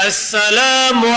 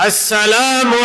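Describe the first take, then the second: Both takes have the same delivery.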